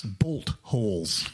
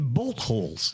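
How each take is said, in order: First: "Bolt holes" drawn out slowly and lower. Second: Said in the usual way. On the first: Shown as a demonstration. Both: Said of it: "That's what they're called in New Zealand".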